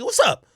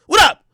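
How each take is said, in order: First: Said in the usual way. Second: Loud, high "What up?" thrown out; shouted challenge. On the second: Retold or imitated. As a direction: bark "What up?" as a dare. Challenging people in hallway.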